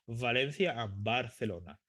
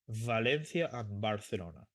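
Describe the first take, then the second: The two takes are said the same way.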